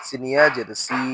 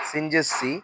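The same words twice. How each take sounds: First: সি with a long i; সি held long; stretched vowel. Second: সি with a short i; no stretch. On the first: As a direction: draw out the vowel of সি. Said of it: "তখন জেরে টান দিব". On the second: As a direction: cut the vowel of সি short. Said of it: "শুধু জের থাকলে টান দিব না". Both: Shown as a demonstration.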